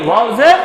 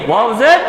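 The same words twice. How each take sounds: The two takes are said the same way.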